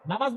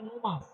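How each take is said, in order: First: The first vowel is an open 'a'. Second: The first vowel is a rounded 'o'. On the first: The speaker calls it right. "নামাজ বলে না" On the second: The speaker calls it wrong. "বলে নোমাজ"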